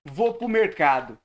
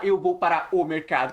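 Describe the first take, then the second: First: "Vou pro mercado" with "para o" squeezed into "pro"; fala comida do dia a dia. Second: "Eu vou para o mercado" with every word said in full; don't swallow anything in "Eu vou para o mercado"; pronúncia certinha e completa. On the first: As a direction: colloquial "Vou pro mercado", words swallowed. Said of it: "É assim que a gente fala". ("Vou pro mercado" coloquial, comendo as palavras) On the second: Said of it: "a gente não fala". ("Eu vou para o mercado" dito por inteiro, sem comer palavras) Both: Shown as a demonstration.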